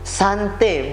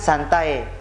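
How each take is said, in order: First: The word ends in an 'eh' sound. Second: The word ends in an 'eye' sound. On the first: The speaker calls it right. "Jadi sante bukan santai" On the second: The speaker calls it wrong. "bukan santai"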